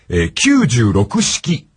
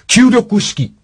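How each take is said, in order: First: The number is read as kyuu-juu-roku. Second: The number is read as kyuu-roku, no juu. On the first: The speaker calls it wrong. "96 式と言ってましたが" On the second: The speaker calls it right. "銃を入れない。"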